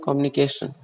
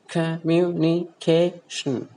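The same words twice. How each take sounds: First: The stress is not on the fourth syllable. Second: The stress is on the fourth syllable. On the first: The speaker calls it wrong. "most of the in Indian speakers pronounce it as communication, which is wrong" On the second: The speaker calls it right. "A is the most prominent part"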